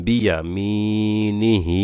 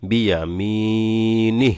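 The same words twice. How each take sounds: First: বিয়া মি নি হি with মি and final হি held long; joined, drawn-out ending. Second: বিয়া মি নি with long মি and নি cut short on an h; stopped ending. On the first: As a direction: chant it through and stretch the হি. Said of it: "হা খারা জের হি". (বিয়া মি নি হি, শেষে হি টেনে) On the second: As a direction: stretch মি, then stop short on নি. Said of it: "এখানে ওয়াকফ করলে". (বিয়া মি নি, শেষে টান ছাড়া সাকিন) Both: Shown as a demonstration.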